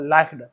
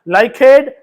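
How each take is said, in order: First: The -ed ending adds no extra syllable. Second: The -ed ending is said as an extra syllable.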